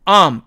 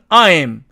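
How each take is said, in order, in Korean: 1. 이 모음은 줄어들어서 두 번째 부분이 빠집니다. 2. 이 모음은 두 부분으로 된 온전한 이중모음입니다. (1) "실제로는 am, am 이렇게 발음합니다" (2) "사전식 발음은 I'm 이렇게"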